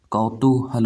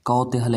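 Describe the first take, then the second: First: कौतूहल as "kau-TOO-hal"; correct long "too" form. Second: कौतूहल as "kau-te-hal"; wrong "te" form. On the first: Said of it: "होता है". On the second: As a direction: say कौतूहल with a short "te" in the middle. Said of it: "ऐसे नहीं लिखा जाता है". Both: Shown as a demonstration.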